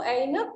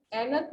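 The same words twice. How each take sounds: First: ऐनक slowly with a gliding "a-i" start; correct pronunciation. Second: ऐनक with no glide, "AE-nak"; one flat open vowel at the start of ऐनक; wrong pronunciation. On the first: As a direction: say ऐनक as "AI-nak", unhurried. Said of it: "वो ऐनक होता है". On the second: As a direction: say ऐनक as "ennak". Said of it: "ऐनक नहीं होता है". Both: Shown as a demonstration.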